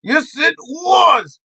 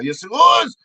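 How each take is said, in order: First: Slow, high "was", stretched and falling; drawn-out insistence. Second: Firm, higher "Yes, it was"; insistent comeback. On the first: Comic repeating the contradiction, emphatic and drawn out. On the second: Comic contradicting the denial, insistent. Arguing back, first take. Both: Acted.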